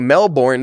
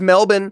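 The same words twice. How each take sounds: First: It is pronounced the American English way. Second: It is pronounced the local Australian way. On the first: "I'm also not speaking with the accent right now. So I will say Melbourne" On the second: "if you were from there, actually the way they say it is Melbourne"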